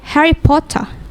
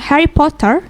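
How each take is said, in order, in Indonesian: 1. Bunyi R di akhir dihilangkan. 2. Bunyi R di akhir jelas diucapkan. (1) "R-nya nggak dipakai" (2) "Kalau American English we say R-nya pakai uh, R-nya di rolling"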